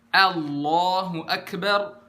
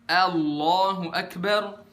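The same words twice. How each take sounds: The two takes are said the same way.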